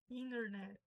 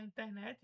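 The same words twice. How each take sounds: First: "internet" as "inner-net", first T dropped; American silent T. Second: "internet" with sounded T and final "chi/ti"; Portuguese pronunciation. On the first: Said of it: "o T fica mudo". ("internet" americano, T mudo) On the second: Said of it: "você pode falar internet". ("internet" à brasileira, com T pronunciado) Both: Shown as a demonstration.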